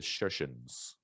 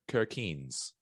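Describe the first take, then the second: First: The name begins with an sh sound. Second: The name begins with a hard k sound.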